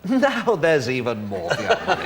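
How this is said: It is said with a laugh in the voice.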